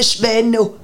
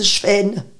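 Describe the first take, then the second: First: The final O vowel is pronounced. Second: The final O vowel is dropped. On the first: "Mais c'est Schweno" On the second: "on écrit Schwen avec un E, pour qu'ils disent Schwen"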